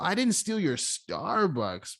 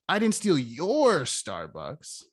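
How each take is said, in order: First: The stress falls on the word Starbucks. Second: The stress falls on the word your. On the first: Something else of mine was stolen. "Maybe it wasn't my Starbucks, but you stole something" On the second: Someone else's Starbucks was stolen. "whose Starbucks did you steal?"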